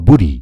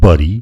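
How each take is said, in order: First: The first vowel sounds like 'boo'. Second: The first vowel sounds like 'buh'. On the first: "बरी अथवा बुरी भन्नुभयो भने गलत हुन्छ" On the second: "बरी अथवा बुरी भन्नुभयो भने गलत हुन्छ"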